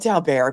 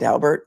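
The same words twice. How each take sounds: First: The name is given a French-style pronunciation. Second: The name is given an English-style pronunciation. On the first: The speaker calls it right. "I like the French pronunciation better" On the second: The speaker calls it wrong. "some people call it Daubert, but I, it just doesn't fly with me"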